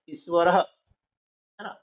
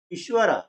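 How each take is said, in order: First: ईश्वरः said slowly with the long ई drawn out; long vowel demo. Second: Said in the usual way. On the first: Shown as a demonstration. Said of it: "उच्चारण में थोड़ा समय ज्यादा लग रहा है". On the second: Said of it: "बोलने में अंतर आ रहा है".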